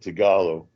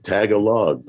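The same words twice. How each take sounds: First: The stress is on the second syllable. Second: The stress is on the first syllable. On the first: The speaker calls it right. "it's always the second syllable in in, in Tagalog that's uh stressed" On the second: The speaker calls it wrong. "I used to think it was Tagalog too when I was a kid. Like Tagalog, tag along"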